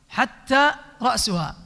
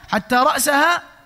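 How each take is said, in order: First: The word ra's ends with a u vowel. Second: The word ra's ends with an a vowel. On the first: A new clause starts with the head. "وإذا رفعها وهو صحيح فصيح" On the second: The head was eaten too. "بالنصب"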